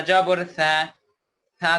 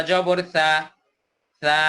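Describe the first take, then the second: No difference in how they are said.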